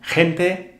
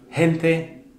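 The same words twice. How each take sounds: First: The first sound is a harsh, throaty standard J. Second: The first sound is a soft, breathy Canarian H.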